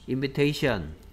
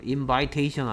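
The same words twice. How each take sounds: First: The vowel after v is a short 'ih'. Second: The vowel after v is an 'eye' sound. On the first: The speaker calls it right. "명사형은 어떻게 읽는다고요?" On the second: The speaker calls it wrong. "아니고요"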